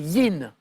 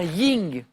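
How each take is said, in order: First: The word ends with a plain n sound. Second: The word ends with an ng sound. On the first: The speaker calls it right. "et c'est yin" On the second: The speaker calls it wrong. "Vous avez prononcé peut-être malgré vous un ying"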